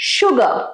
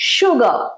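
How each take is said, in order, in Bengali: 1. শেষের 'r' ধ্বনিটি নীরব থাকে। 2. শেষের 'r' ধ্বনিটি নীরব থাকে।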